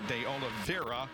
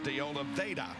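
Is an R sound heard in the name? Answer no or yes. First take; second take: yes; no. First: The name is said with an R sound. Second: The name is said without an R sound. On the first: This is how letter-writers say it should sound. "there's an R in there. It should be De Oliveira" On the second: This is how the driver himself says it. "but he says De Oliveira"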